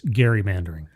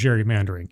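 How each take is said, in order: First: The word begins with a hard G sound. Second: The word begins with a soft J sound. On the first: The speaker calls it right. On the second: The speaker calls it wrong.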